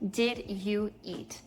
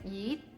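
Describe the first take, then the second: First: Each word is pronounced separately and clearly. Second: The words are blended into one short word. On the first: "you might learn in your class or in a language learning app" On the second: "when you hear someone actually say that, it sounds like"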